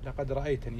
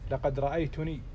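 First: The verb ends in a short 'a' vowel. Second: The verb ends in a short 'u' vowel. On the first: Someone else saw the speaker. The speaker calls it right. "يعني هل رأيتني" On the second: The speaker saw himself. The speaker calls it wrong. "يعني أنا أرى نفسي"

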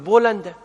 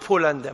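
First: The word begins with a B sound. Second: The word begins with a P sound. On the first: The speaker calls it right. "تقول بولندا" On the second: The speaker calls it wrong. "ما يصير تقول بولندا، ما في العربية با، هذا غلط"

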